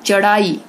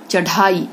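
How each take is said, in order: First: चढ़ाई said as "charaai"; wrong consonant. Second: Said in the usual way. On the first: Shown as a demonstration. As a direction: drop the breath from the flap in चढ़ाई. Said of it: "गलत". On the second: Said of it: "ये सही है".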